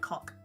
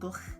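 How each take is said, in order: First: It ends in a hard k sound. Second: It ends in a throaty, rasping ch sound.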